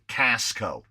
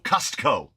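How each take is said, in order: First: The t sound is dropped. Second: The t sound is clearly pronounced. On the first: "as my mother-in-law pronounces it" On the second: "you have to lean on the T in Costco"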